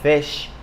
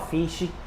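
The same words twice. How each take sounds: First: The word ends cleanly on the sh sound. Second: An extra vowel sound is added after the sh. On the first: The speaker calls it right. "quando na verdade é fish" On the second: The speaker calls it wrong. "Não fala fish"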